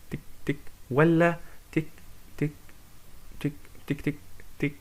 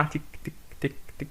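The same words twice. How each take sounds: First: تك said with uneven pauses, some long gaps, some quick; irregular ticks. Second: Even, evenly spaced ticking like a regular pulse; steady ticks. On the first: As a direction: tap out a broken, irregular beat. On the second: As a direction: tap out a steady beat, تك تك تك at equal gaps. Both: Shown as a demonstration. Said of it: "يعني منتظم ولا غير منتظم".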